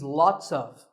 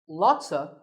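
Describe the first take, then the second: First: Each word is pronounced fully and separately. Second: The words are blended into one short reduced word.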